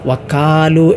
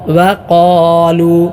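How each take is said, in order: First: The consonant is a plain front k sound. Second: The consonant is a deep, heavy q sound. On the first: The speaker calls it wrong. "കാഫായി വക്കാലു" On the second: The speaker calls it right. "കാഫല്ല, ഖാഫ്"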